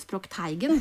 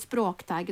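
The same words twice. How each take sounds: First: The stress is on the second syllable. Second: The stress is on the first syllable. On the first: The speaker calls it wrong. "og ikke språkteigen" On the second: The speaker calls it right. "Vi sier språkteigen"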